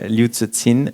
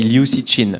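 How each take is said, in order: First: The name is said with Chinese-like sounds. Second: The name is said with French sounds.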